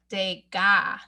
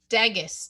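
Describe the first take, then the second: First: The name is said with French pronunciation. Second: The name is read as English spelling suggests. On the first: The speaker calls it right. "he's French, and we pronounce that Degas" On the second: The speaker calls it wrong. "it looks like Degas, doesn't it?"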